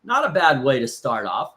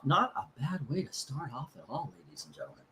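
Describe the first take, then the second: First: Said in the usual way. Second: Much softer mock-announcer echo; quiet showman's aside to the viewers; soft repeat. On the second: Real, not acted. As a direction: murmur the verdict again like a showman under his breath.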